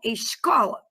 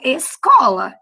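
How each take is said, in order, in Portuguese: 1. O s antes do c soa como sh. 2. O s antes do c é um s simples. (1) "Vocês falam escola" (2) "eu falo escola"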